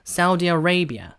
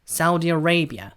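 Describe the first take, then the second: First: Arabia is said with 'uh-ray' vowels. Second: Arabia is said with 'uh-ray' vowels.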